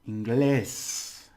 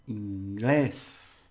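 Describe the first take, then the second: No difference in how they are said.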